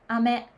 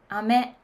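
The two takes are said the same way.

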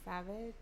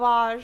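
First: The name is said quietly. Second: The name is said loudly.

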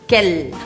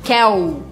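First: The final L is clear, with the tongue tip. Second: The final L sounds soft and vowel-like. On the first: The speaker calls it right. "fazendo L assim na pontinha da língua" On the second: The speaker calls it wrong. "e não falem quel"

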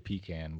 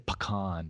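First: It is said with a Southern pronunciation. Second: It is said with a non-Southern pronunciation. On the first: This is how the speaker's own region says it. "I'm a Southerner, so I say pecan" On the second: This is how other people say it. "But they say pecan"

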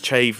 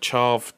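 First: The name rhymes with shave. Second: The name does not rhyme with shave. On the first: The speaker calls it right. "It's Chave, ... It's like shave, but with a ch" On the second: The speaker calls it wrong. "not Chav"

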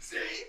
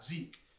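First: The name is shouted loudly. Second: The name is said calmly, without shouting.

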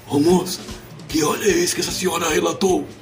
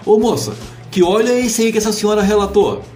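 First: The voice is hoarse with a blocked nose. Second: The voice is clear and normal.

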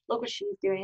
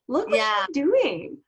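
First: It sounds scornful and disapproving. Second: It sounds admiring and impressed. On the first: The speaker is putting the other woman down. The speaker calls it wrong. "oh, we got to put her down" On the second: The speaker is praising the other woman. The speaker calls it right. "just change the tone"

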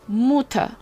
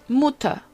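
No difference in how they are said.

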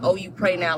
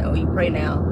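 First: It sounds sincere and congratulating. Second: It sounds sarcastic and mocking.

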